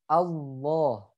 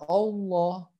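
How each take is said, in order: First: The first vowel sounds like a. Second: The first vowel sounds like o. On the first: The speaker calls it right. "Jadi bacanya a. Allah gitu ya" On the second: The speaker calls it wrong. "bukan Allah ya"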